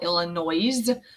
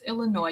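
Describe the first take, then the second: First: The final S sound is pronounced. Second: The final S sound is left silent. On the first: The speaker calls it wrong. "Some people call it Illinois, but it's not correct" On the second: The speaker calls it right. "You don't say the S"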